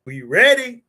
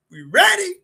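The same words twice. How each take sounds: First: Louder, eager call to the crowd; rallying question to the chat; hype call. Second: Much higher and louder, squealing excitement; giddy rising shout to the crowd; high hype call. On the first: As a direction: pump the audience up. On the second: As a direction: crank it up even higher. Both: Real, not acted. Hyping up the show start.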